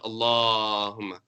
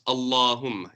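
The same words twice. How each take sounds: First: The long vowel is stretched well beyond two counts. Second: The long vowel is held for two counts. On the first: The speaker calls it wrong. "It's not Allahumma" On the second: The speaker calls it right. "It's only two counts"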